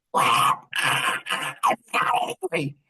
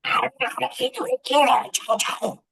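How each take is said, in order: First: Sulky granddaughter. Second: High, squeaky mimic of a pouting three-year-old; mocking granddaughter. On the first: Retold or imitated. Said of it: "And she's like". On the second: Grandpa mimics granddaughter, high and squeaky. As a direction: echo her words back in a much higher voice. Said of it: "So I'm like".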